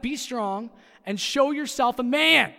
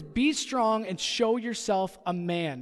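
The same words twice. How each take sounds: First: Loud, slow coach bark; barking gym coach. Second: Said in the usual way. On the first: Shown as a demonstration. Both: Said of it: "Sound like a football coach again".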